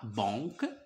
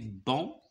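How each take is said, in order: First: A final k sound is pronounced at the end. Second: The word ends on the vowel, no k sound. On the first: The speaker calls it wrong. "on ne dit pas banque" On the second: The speaker calls it right. "c'est ne se prononce pas"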